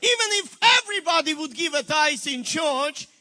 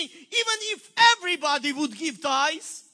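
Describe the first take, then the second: First: "Even" stressed, the whole line louder; emphatic repeat. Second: Said in the usual way. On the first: Shown as a demonstration. Preacher repeating his point to the congregation, louder stress on "Even". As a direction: hammer it home the second time. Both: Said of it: "I'll repeat it one more time".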